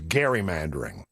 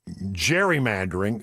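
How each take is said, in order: First: The word begins with a hard G sound. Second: The word begins with a soft J sound. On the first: The speaker calls it right. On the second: The speaker calls it wrong.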